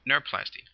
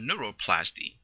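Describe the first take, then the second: First: No vowel joins the root and the suffix. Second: An 'o' vowel joins the root and the suffix. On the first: The speaker calls it wrong. "if you say it quickly enough, it probably doesn't um, sound so bad" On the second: The speaker calls it right. "sounds much much better"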